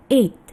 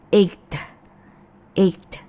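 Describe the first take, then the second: First: EIGHT with a silent g, just ayt; correct eight. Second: EIGHT with the g sounded as k, aykt; forced g. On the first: Teacher models the right word, correct pronunciation. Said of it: "Yang betul adalah". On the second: Teacher shows students a forced G, mispronounced. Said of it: "akhirnya ada yang mengucapkannya". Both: Shown as a demonstration.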